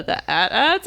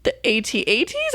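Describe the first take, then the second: First: "at-ats" said as a single word, rising and unsure; one-word at-ats. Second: "A T A Ts" spelled letter by letter, rising like a question. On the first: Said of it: "No, that's not what you said". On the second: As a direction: say "A T A Ts" as separate letters, unsure. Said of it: "What did you just call them?". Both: Retold or imitated.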